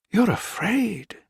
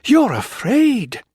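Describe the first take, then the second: First: Slow, high, breathless realization; gasped. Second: High, loud, slow accusation; accusing. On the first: Wife realizing the samurai is afraid, high gasped words. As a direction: gasp it out as it dawns. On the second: Wife accusing the colonel, high loud slow. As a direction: throw it at him. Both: A narrator's reading. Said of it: "she gasped".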